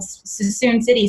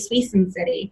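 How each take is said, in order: First: The name is said with its local pronunciation. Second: The name is said with a mispronunciation. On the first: The speaker calls it right. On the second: The speaker calls it wrong.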